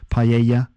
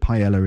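First: It is pronounced the Spanish way. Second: It is pronounced the English way. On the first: "my pronunciation of that is probably very bad" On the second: "we call it paella in England"

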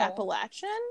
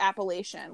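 First: It is said the southern way. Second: It is said the non-southern, northern way. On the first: "down here people call it Appalachian" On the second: "when I was growing up, we called it the Appalachian"

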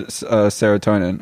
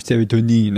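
First: It is pronounced the usual English way. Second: It is pronounced the French way.

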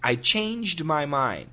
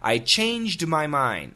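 First: The D at the end of changed is heard. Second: The D at the end of changed is heard.

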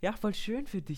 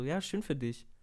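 First: It sounds sincere and warm. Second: It sounds dismissive and begrudging.

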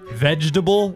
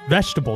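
First: The g is said as a j sound. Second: The g is not said as a j sound. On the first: The speaker calls it right. "because G makes the jaw sound" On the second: The speaker calls it wrong. "That's what I say"

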